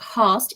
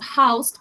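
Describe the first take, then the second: First: The vowel is a single, closer vowel sound. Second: The vowel glides as a diphthong. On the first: "pronounced host in Old English" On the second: "now house pronounced housed, ... the emergence of the modern diphthong"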